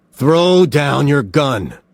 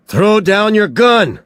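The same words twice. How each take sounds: First: "Throw down your gun." slow and measured, leaning on throw; steady commanding insistence; firm order. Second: "Throw down your gun!" yelled high and loud, pushing down on gun; urgent shouted order; shouted command. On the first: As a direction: calmer repeated order. Somerset repeats order more firmly. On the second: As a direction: order it at full volume. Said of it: "Somerset shouted". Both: A narrator's reading.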